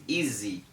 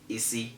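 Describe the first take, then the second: First: The s is sounded as a z. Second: The s is sounded as an s. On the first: The speaker calls it right. "it's always easy" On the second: The speaker calls it wrong. "Have you ever heard anybody say easy before? No"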